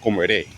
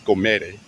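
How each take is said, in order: First: "comeré" stressed on the last syllable, ré; stress on final E. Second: "comere" wrongly stressed on ME; stress on middle syllable. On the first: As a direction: save the weight for the ré of "comeré". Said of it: "put the emphasis on the E". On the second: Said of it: "So not com". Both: Shown as a demonstration.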